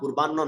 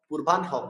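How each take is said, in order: First: The h sound comes before the n sound. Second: The n sound comes before the h sound. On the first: The speaker calls it wrong. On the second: The speaker calls it right.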